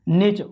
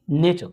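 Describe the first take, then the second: First: नेचर with a full rolled r at the end; नेचर sounding the final r; गलत नेचर; wrong nature. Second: नेचर dropping the final r; सही नेचर; correct nature. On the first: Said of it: "नेचर नहीं". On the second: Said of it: "नेचर नहीं, नेचर". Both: Shown as a demonstration.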